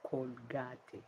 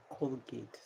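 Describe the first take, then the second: First: Colgate as col-GAH-teh; Spanish pronunciation. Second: Colgate as COAL-gate; two syllables in Colgate, silent e; English pronunciation. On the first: Telling viewers how Spanish says it, Colgate as col-GAH-teh. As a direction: sound the a and final e of Colgate. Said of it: "Spanish say Colgate". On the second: Telling viewers how English says it, Colgate as COAL-gate. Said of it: "In English, we say". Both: Shown as a demonstration.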